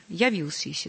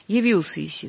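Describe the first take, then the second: First: "явился" with a clear, unreduced ya at the start; clear first vowel. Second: "явился" slurred to "йивился", first vowel like i; careless reduced vowel. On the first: Teacher corrects careless choir singing, clear first vowel. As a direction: keep a full open "я" in "явился". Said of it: "Мы, конечно, не можем спеть". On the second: Teacher warns choir against careless singing, reduced vowel. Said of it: "небрежно". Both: Shown as a demonstration.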